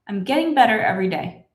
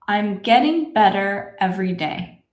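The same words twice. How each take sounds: First: The sentence is spoken at a fast, natural speed. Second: The sentence is spoken very slowly. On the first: "this is how I would say it in my normal speed" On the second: "Let's say this together slowly"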